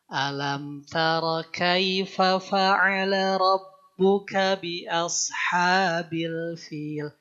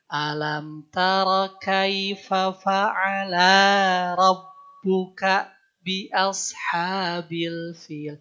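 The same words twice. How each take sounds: First: The first vowel of fa'ala is short. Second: The first vowel of fa'ala is lengthened. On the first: One person did it. The speaker calls it right. "Itu kan yang pasnya" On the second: Two people did it together. The speaker calls it wrong. "Hanya memanjangkan dikit"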